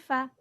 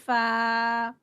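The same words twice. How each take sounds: First: The vowel is kept short. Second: The vowel is stretched long. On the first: The speaker calls it right. "it's only fa" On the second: The speaker calls it wrong. "it's not fa"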